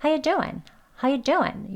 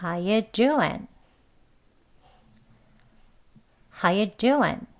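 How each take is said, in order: First: "How you doing" fast, as "ha-ya doin"; quick weak form. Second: "How you doing" slowly, still as "ha-ya doin"; slow weak form. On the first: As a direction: rush reduced "How you doing", g dropped. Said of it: "빨리 하면서". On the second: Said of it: "천천히 한번 해볼게요". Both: Shown as a demonstration.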